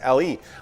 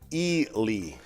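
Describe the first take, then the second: First: The first vowel sounds like 'eh'. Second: The first vowel sounds like 'ee'. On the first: The speaker calls it wrong. "the common mispronunciation is L E" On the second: The speaker calls it right. "actually, the pronunciation is Ely"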